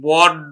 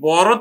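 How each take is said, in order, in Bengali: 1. শেষের ব্যঞ্জনটি একটি দীর্ঘ দ্বিত্ব d। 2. শেষের ব্যঞ্জনটি একটি একক ফ্ল্যাপ। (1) "ব্যঞ্জন দ্বিত্ব" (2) "বড় থেকে"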